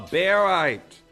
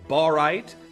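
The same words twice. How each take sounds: First: The first syllable sounds like the start of 'barium'. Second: The first syllable does not sound like 'barium'. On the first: This form follows the element the name comes from. "its name is derived from its uh, chemical element of barium. So really" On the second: This is the form many viewers use. "I know a lot of you know it as barite"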